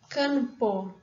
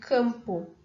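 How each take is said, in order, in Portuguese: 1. O nasal é feito com a ponta da língua. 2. O nasal é feito com os lábios fechados. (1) "depois eu vou produzir um N" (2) "se a gente for olhar a nossa produção"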